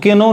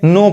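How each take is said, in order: First: The word begins with a k sound. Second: The word begins with an n sound. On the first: The speaker calls it wrong. "अब इसको के नो नहीं कहेंगे" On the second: The speaker calls it right. "नो पढ़ेंगे"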